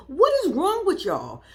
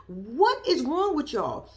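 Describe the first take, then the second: First: Higher, louder exasperated cry; exasperated outburst. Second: Dragged out slowly in disbelief. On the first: Reacting to the family, an exasperated louder cry. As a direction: throw it at them in disbelief. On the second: Repeating the question to the family, slow and disbelieving. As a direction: let each word drop slowly, shaking your head. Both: Real, not acted.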